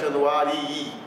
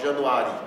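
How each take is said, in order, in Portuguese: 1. A palavra termina com dois sons de i distintos. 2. A palavra termina com um único som curto de i. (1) "tem que pronunciar Januarii, fazendo destacar os dois Is" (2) "Você não pode pronunciar só Januari"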